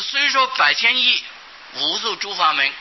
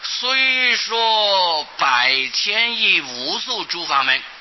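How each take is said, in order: First: It is split in two with a pause. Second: It is read straight through without a pause. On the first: The number phrase is cut off and the meaning breaks. The speaker calls it wrong. "把它切成两段的话" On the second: The number phrase stays joined so the meaning is clear. The speaker calls it right. "不必在意字下面停顿，把它念作"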